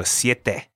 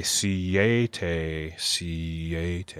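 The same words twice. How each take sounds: First: "siete" as sye-te; two syllables. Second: "siete" dragged out as see-ay-tay, low and soft; three syllables. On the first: Teacher correcting the gringo version, two-syllable "siete". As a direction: run "siete" in two beats with a quick glide. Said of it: "Siete is two syllables". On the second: Teacher showing learners the mistake, slow three-syllable "siete". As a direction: slowly break "siete" into three gringo beats. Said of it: "jag it out to three syllables". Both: Shown as a demonstration.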